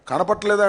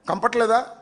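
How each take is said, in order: First: The word is said in full as kanapatleda. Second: The word is clipped to kampatleda. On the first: The speaker calls it right. "అనమంటే" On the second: The speaker calls it wrong. "అంటున్నాడు"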